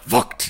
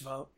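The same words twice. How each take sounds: First: The name does not sound like the word vote. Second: The name sounds exactly like the word vote. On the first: The speaker calls it wrong. "And he'd say it like that" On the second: The speaker calls it right. "It's pronounced vote, like how you vote for president"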